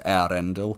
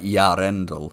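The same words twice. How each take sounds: First: The opening vowels are kept apart as separate sounds. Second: The opening vowels glide together into a ya sound. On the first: The speaker calls it right. "you separate the e and the a" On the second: The speaker calls it wrong. "he says it more like Yarendel, but that's a misunderstanding"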